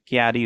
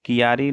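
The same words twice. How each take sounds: First: क्यारी as "kyaa-ree"; joined ky cluster. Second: कियारी as "ki-yaa-ree"; split first syllable. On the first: Teacher correcting the word, क्यारी in two syllables. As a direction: run k and y together in क्यारी. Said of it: "क्यारी होता है". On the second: Teacher showing the mistake, कियारी with ki-yaa. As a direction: break कियारी into three syllables. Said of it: "कियारी नहीं होता है". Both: Shown as a demonstration.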